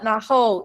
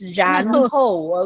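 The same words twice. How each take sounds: First: The word begins with an n sound. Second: The word begins with a curled-tongue r sound. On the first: The speaker calls it wrong. "Taiwanese people always say 然后 but it's not 然后" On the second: The speaker calls it right. "it's 然后"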